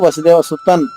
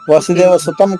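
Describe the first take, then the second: First: The word ends with an n sound. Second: The word ends with an m sound. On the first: The speaker calls it right. "సుతన్ నా రావాలమ్మా" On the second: The speaker calls it wrong. "కాదు"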